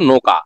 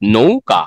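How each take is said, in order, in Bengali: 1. প্রথম সিলেবলে সাধারণ 'o' স্বরধ্বনি আছে। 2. প্রথম সিলেবলে 'ou' গ্লাইড স্বরধ্বনি আছে। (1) "আমি লিখছি নয় আকারে নো, কয় আকারে কা, বললে উচ্চারণ হলো" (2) "যখন এখান থেকে এভাবে দিব"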